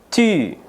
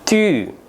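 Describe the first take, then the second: Both takes have the same delivery.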